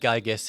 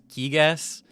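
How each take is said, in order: First: The first syllable does not sound like 'geeg'. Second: The first syllable sounds like 'geeg'. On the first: This is how it was imagined in childhood. "I always said Gygas in my mind as a kid" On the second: This is the official pronunciation. "I think it's technically pronounced Gigas. Like Geeg is how it's pronounced in Japanese"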